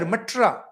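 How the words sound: The name is pronounced the British way. The speaker calls it wrong. "These British people would pronounce it as"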